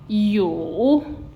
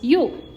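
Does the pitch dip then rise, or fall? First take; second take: dip-rise; fall. First: The pitch dips low and then rises. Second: The pitch falls sharply and briefly. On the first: "third tone, like I said, sustain a bit and then uh, raise your head" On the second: "Last tone is you"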